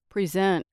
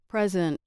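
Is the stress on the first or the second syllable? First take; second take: second; first. First: The stress falls on the second syllable. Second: The stress falls on the first syllable. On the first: It is a verb. "and on the second syllable, they act as verbs" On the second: It is a noun. "With stress on the first syllable, the following words act as nouns"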